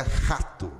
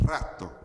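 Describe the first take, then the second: First: "rato" with a guttural R, like xato; carioca R. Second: "rato" with a tapped, trilled R on the tongue tip. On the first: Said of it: "O carioca falaria". ("rato" com R gutural carioca) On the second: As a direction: roll the R at the start of "rato". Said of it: "não, é rato". ("rato" com R vibrante na ponta da língua) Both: Shown as a demonstration.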